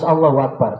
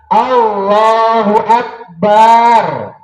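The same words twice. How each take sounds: First: The vowel after the b is kept short. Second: The vowel after the b is drawn out long. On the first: The speaker calls it right. "Harus Allahu Akbar" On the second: The speaker calls it wrong. "Tidak memanjangkan huruf ba"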